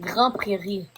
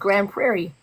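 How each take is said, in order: First: The name is said with a French pronunciation. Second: The name is said with an English pronunciation. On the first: "She's trying to speak French" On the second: "But in English, it's Grand Prairie"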